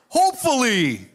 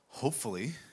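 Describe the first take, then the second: First: It is said in an upbeat, hopeful way. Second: It is said in a gloomy, doubtful way.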